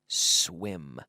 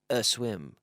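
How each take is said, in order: First: The word starts directly with the s sound. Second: An extra vowel sound comes before the word. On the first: The speaker calls it right. "but swim" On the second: The speaker calls it wrong. "We don't say"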